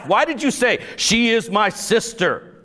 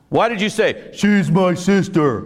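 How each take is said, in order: First: It is said in his normal reading voice. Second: It is said in a put-on dumb guy voice.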